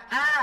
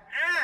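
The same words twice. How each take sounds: First: "a" as the open alif vowel; simple open "a"; plain Arabic A. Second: "a" squeezed from the throat as Arabic ain; tight-throated "a"; throaty Arabic ain. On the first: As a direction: model "a" long and clear, louder, without throat squeeze. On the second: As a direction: model "a" with a constricted pharynx. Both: Shown as a demonstration. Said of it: "Ini beda penyebutan".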